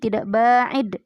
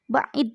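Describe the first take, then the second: First: The vowel after the first consonant is long. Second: The vowel after the first consonant is short. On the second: "dengan tidak memakai alif setelah ba"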